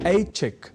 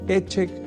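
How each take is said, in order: First: The first vowel is the diphthong ai. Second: The first vowel is a plain e sound. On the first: The speaker calls it right. "जैसे इच्छा से ऐच्छिक" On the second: The speaker calls it wrong. "जैसे अशुद्ध प्रयोग कर जाते हैं"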